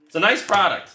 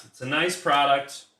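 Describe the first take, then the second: First: Higher and louder, selling it; louder, higher enthusiastic praise of the cards; upbeat praise. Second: Said in the usual way. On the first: Real, not acted. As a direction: say it like a hype pitch. Repeats line, first take marked.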